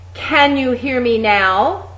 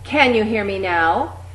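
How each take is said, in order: First: It is belted out at full volume. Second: It is said clearly loud and projected. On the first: "Really belt that out" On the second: "getting progressively louder each time"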